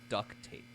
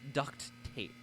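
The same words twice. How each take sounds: First: The first word ends without a T sound. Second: The first word ends with a T sound. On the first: The speaker calls it wrong. "I thought this was duct tape. Like, D U C K" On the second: The speaker calls it right. "There's a T at the end"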